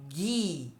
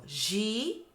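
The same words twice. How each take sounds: First: "gui" with a hard /g/, said clearly. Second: "Gi" with a soft /ʒ/, drawn out. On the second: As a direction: model "Gi" soft and clear. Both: Shown as a demonstration. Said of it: "Olha como é diferente".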